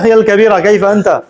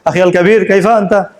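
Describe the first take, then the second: First: A short 'a' vowel follows 'kabir'. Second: 'Kabir' ends without any added vowel. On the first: "যদি হরকত দিয়ে বলতে চাও তাহলে কি দিতে হবে, জবর দিতে হবে।" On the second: "কথাবার্তার মধ্যে এই হরকত না দেওয়াটাই সুন্দর।"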